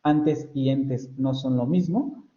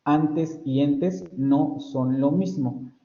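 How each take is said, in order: First: Slow, with "antes" and "entes" kept apart; slow contrast demo. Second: Very slow, stretching "antes" and "entes"; very slow contrast demo. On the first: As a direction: say "antes y entes" slowly so both vowels are clear. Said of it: "sigo percibiendo distintividad". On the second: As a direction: spell out "antes" against "entes" at half speed. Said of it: "sigo percibiendo la distintividad". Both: Shown as a demonstration.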